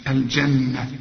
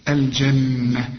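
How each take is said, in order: No difference in how they are said.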